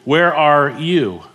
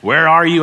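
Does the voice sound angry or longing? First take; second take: longing; angry. First: It is said longingly, with weight on "you". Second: It is said in an angry, scolding tone. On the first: The caller wants to reconnect with the true self of the one lost. The speaker calls it right. "I wonder if the emphasis should be on the word "you."" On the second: The caller wants to punish the one who is hiding. The speaker calls it wrong. "a lot of people hear it as this angry parent"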